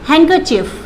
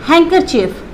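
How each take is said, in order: No difference in how they are said.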